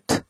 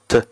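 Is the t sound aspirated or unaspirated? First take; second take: aspirated; unaspirated. First: The t is released with a puff of air. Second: The t is released without a puff of air. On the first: "我们中国人念t" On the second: "印度人呢他们不送气，这个舌头呢会稍微控制一下发成t"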